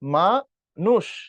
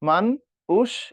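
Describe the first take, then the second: First: The word is split after 'ma'. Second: The word is split after 'man'. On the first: The speaker calls it right. "এটা" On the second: The speaker calls it wrong. "এরকম না"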